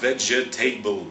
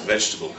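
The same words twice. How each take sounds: First: It is said with four full syllables. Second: It is said with three syllables. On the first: The speaker calls it wrong. "It looks as if it's vegetable" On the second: The speaker calls it right. "but it's pronounced vegetable"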